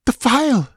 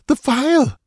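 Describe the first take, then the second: First: A much higher, urgent gasped cry; snatch the word out in desperate breath. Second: Even higher, strained gasping cry; gasped cry. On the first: Exhausted dancer gasping for the stolen phial, urgent high cry. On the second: Dancer repeating her plea for the phial, strained high gasp. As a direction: cry it again, more desperate. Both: A narrator's reading. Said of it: "she gasped".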